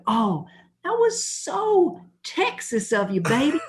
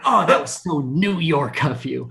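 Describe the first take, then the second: First: High, drawn-out parody of delight; mock gushing. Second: Lightly hammed-up delighted gushing; excited wife. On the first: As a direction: mockingly coo at your wife, high and slow. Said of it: "I'm like". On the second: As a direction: imitate a wife thrilled by her husband's rudeness. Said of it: "my wife gets so excited".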